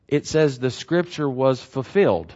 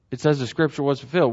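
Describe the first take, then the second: First: Measured reading, giving each word room; slow, deliberate reading. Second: Said in the usual way. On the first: Shown as a demonstration. Preacher telling listeners to reread the verse slower, deliberate reading. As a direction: read the verse slowly and evenly. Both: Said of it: "slower. Take a deep breath".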